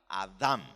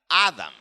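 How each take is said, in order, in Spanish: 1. El acento está en la última sílaba. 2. El acento está en la primera sílaba. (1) "con el acento en la última sílaba" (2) "con el acento en la primera sílaba"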